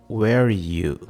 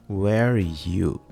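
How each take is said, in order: No difference in how they are said.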